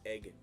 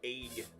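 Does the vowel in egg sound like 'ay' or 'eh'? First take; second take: eh; ay. First: The vowel sounds like 'eh', as in 'beg'. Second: The vowel sounds like 'ay', as in 'aig'. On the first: "and not egg" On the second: "there's not even like an A in that"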